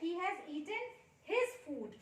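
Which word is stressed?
his. The stress falls on the word his. He ate his own food, not anyone else's. "उसने अपना खाना खाया है, किसी और का नहीं खाया है"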